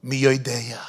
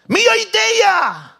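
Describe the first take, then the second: First: Said in the usual way. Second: "Mi Yodeya" sung out high, loud and slow; drawn-out cry. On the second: Shown as a demonstration.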